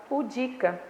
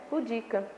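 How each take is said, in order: No difference in how they are said.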